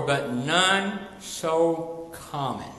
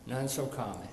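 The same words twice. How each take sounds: First: Slow, leaning hard on none; preacher's slow emphatic line. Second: Much softer, falling echo of none so common; hushed repetition for effect. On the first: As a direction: drag out none so common, stressing none. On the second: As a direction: drop the voice and repeat it quietly. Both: Shown as a demonstration.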